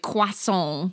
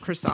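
First: It is pronounced with a French-style accent. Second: It is pronounced with a plain English accent. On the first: The speaker is showing off knowledge of French. "they're very good at French. So they say things like croissant" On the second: The speaker is talking like an ordinary person. "instead of croissant, right. like a normal person"

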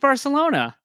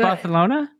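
First: The c is said with a plain s sound. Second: The c is said with a lisped th sound. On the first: The speaker calls it wrong. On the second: The speaker calls it right.

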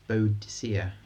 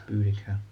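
First: The name is said as bo-a-di-SEE-a. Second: The name is said as BOO-di-ka. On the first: The speaker calls it wrong. "incorrectly pronounced as Boadicea" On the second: The speaker calls it right. "But it's Boudicca"

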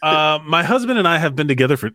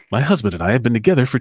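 First: It is read in the speaker's ordinary voice. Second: It is read in a put-on radio-announcer voice.

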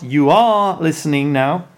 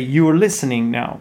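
First: The word 'are' is said in its full, strong form. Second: The word 'are' is reduced to a weak, unstressed form. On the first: The speaker calls it wrong. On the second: The speaker calls it right. "So that's why we use the weak form of the auxiliary verb"

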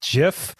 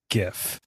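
First: The word starts with a soft G sound. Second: The word starts with a hard G sound. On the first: The speaker calls it right. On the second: The speaker calls it wrong.

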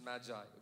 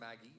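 First: It is not said like the name Maggie. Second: It is said like the name Maggie. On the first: The speaker calls it right. "This is Magi" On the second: The speaker calls it wrong. "Don't say Maggie. That's noodles"

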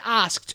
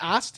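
First: The K sound is clearly pronounced in the word. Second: The K sound is left out of the word. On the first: The speaker calls it right. "I have to really say asked" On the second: The speaker calls it wrong. "If I don't say the K, it just comes out like asked"

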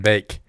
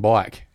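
First: The vowel sounds like 'ay', as in 'bake'. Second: The vowel sounds like 'eye', as in 'bike'. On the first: "You're saying bake" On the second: "you're not saying bike"

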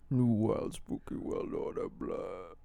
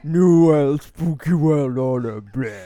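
First: The voice is higher, not deep in the throat. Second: The voice is deeper, from the throat.

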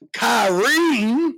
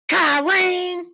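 First: It is said in his normal voice. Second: It is said in a Madea impression voice.

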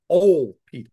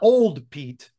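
First: The D at the end of 'Old' is dropped. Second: The D at the end of 'Old' is pronounced. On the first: The speaker calls it right. "O-L apostrophe Pete. ... don't pronounce the D" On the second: The speaker calls it wrong. "Not Old Pete"

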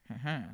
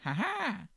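First: The laugh sounds relaxed and cool. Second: The laugh sounds high and scared.

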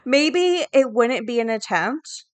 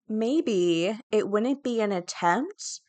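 First: It is said in a normal, plain voice. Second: It is said in a put-on snooty voice.

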